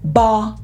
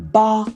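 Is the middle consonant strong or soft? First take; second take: soft; soft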